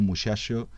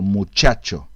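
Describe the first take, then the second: First: The ch sounds are softened, almost like sh. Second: The ch sounds are crisp and sharp. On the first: "se relaje ese sonido che" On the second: "debe sonar algo así como"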